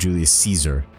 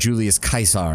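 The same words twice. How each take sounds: First: Caesar begins with a soft S sound. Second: Caesar begins with a hard K sound. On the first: "instead of" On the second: "K sound in place of a C"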